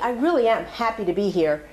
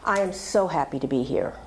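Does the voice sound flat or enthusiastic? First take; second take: enthusiastic; flat. First: It is said in a warm, enthusiastic voice. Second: It is said in a flat, unconvincing voice.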